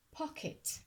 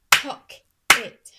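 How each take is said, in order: First: Said in the usual way. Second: "Pock-it" in two slow, loud beats; clapped-out syllables. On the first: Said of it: "clap syllables in this word". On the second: Shown as a demonstration. Teacher clapping syllables, "Pock-it" beat by beat. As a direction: punch each half of "Pock-it", pausing between. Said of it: "I'm going to clap syllables".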